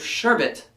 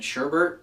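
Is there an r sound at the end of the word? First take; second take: no; yes. First: The second syllable has no r sound. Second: The second syllable ends with an r sound. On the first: "It's rainbow sherbet" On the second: "a lot of us grew up pronouncing it sherbert"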